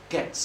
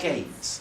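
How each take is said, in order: First: The vowel sounds like the one in 'get'. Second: The vowel sounds like the one in 'gate'. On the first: The speaker calls it right. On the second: The speaker calls it wrong. "You're saying gates"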